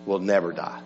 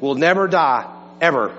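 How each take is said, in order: First: Said in the usual way. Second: "never" and "ever" each hit hard with a falling tune; emphatic double negative. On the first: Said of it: "here's a double negative". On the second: Shown as a demonstration. Pastor hammering the point home to the congregation, stress on never and ever. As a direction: lean on "never", then drop "ever" like a final word. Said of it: "For emphasis".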